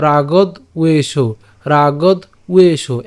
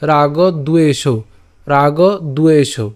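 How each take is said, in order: First: রাগদ উয়ে সৌ said slowly, broken after রাগদ; split syllable demo. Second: রাগ দুয়ে সৌ with দ carried onto দুয়ে; joined syllables. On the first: (ভেঙে ধীরে রাগদ উয়ে সৌ) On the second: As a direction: join it as রাগ দুয়ে সৌ, smoothly. (একসাথে রাগ দুয়ে সৌ) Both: Shown as a demonstration. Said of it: "একসাথে বললে".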